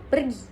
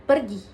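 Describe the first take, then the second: No difference in how they are said.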